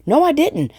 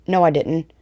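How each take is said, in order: First: Much higher, caught-out No, I didn't; a high, amused oops on No, I didn't; surprised self-correction. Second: Said in the usual way. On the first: Real, not acted. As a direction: suddenly realise you got it wrong. Second take, catching her own mistake.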